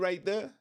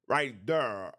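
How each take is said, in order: First: There is said with a plain there sound. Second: There is said with a der sound. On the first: "when you ask one of us, I'll be like" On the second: "they be like der"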